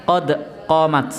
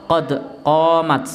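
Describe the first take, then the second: Both takes have the same delivery.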